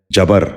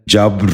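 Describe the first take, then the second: First: جبر said "ja-bar", in two syllables; a vowel between b and r in جبر; wrong pronunciation. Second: جبر said "jabr", no vowel between b and r; b running straight into a rolled r in جبر; correct pronunciation. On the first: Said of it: "یہ غلط تلفظ ہے". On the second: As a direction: say جبر as one syllable, "jabr". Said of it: "درست تلفظ ہے". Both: Shown as a demonstration.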